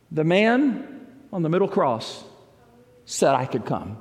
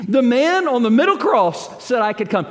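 First: Said in the usual way. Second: Higher and louder, hitting "middle"; emphatic repeat. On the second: Shown as a demonstration. Preacher repeating the man's answer to the congregation, emphatic. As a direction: proclaim it, stress on "middle". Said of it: "That's it".

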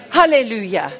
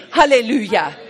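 No difference in how they are said.

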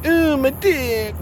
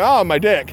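First: High, slow, drawn-out Ooh of awe. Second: Said in the usual way. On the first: Shown as a demonstration. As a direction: stretch the Ooh up high, slowly. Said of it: "I'm not like". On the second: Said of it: "but I'm like".

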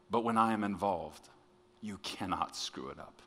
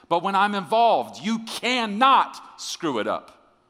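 First: Soft, tender reassurance; very sweet. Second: High, loud, stretched-out declaration; emphatic shout. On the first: God reassuring a worried preacher, very sweetly. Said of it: "very sweetly say". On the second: God insisting to the preacher, shouted emphatically. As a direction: proclaim it at full force, voice way up. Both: Retold or imitated.

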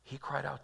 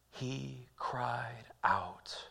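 First: Said in the usual way. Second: Slow, breathy whispered hush. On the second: Shown as a demonstration. Pastor hushing the church on Peter's cry, slow whisper. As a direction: whisper it like a secret.

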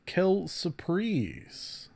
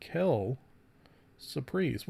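First: Quelle surprise drawn out slowly with a French lilt; mock French quelle surprise. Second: Quelle whispered, surprise soft and breathy. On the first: Host joking to listeners, slow mock French quelle surprise. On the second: Host repeating the phrase to himself, whispered quelle surprise. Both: Real, not acted. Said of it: "which is French for".

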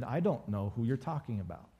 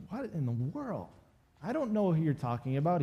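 First: Softer, understated brush-off; dismissive denial. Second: Mock-incredulous, with swooping pitch; exasperated denial. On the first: Retold or imitated. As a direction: lightly act a low-key denial. Voicing Peter's first denial. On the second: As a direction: act out a baffled protest. Voicing Peter's second, exasperated denial.

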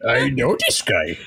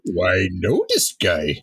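First: Lightly voiced Kermit frog; plain-ish Kermit impression. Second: Low monster growl; gruff, excited Cookie Monster. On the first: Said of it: "he's the Kermit voice". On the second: Retold or imitated. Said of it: "Why do I have a Cookie Monster voice".

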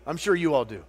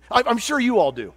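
First: Said in the usual way. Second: Higher and louder, punched; emphatic. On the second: Real, not acted. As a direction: throw it out to the crowd with force.

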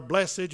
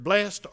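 First: "blessed" with the -ed sounded as its own syllable; two-syllable BLESSED. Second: "blessed" with a silent second E, ending in -st; clipped to a single beat, "blessed" rhyming with "best"; one-syllable BLESSED. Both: Shown as a demonstration. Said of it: "you can pronounce it either way".

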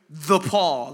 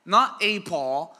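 First: "The Paul" with THE leaned on, louder; stress on THE. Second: "Not a Paul" with NOT hit hard and loud, slowed; slow it down and punch NOT; stress on NOT. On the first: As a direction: land hard on THE, the one and only. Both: Shown as a demonstration.

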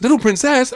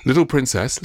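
First: Very high, loud thrilled question; mock excitement. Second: Said in the usual way. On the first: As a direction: echo the title like an ecstatic parent. Thrilled mother repeats the title.

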